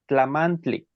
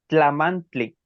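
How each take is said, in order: First: It is said with a TL sound. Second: The same.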